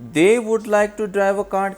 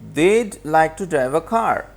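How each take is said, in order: First: The word would is said in full. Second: The word would is contracted onto they.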